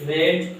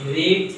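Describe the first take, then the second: First: The vowel is short, like 'red'. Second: The vowel is long, like 'reed'. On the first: It is the third form of the verb. "এই রিড ভার্বের তিন নম্বর যেতে হয়" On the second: It is the base form of the verb. "Spelling একই হবে কিন্তু উচ্চারণটা আলাদা হবে।"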